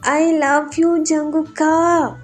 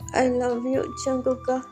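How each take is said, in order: First: It is shouted loudly. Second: It is said softly, not shouted.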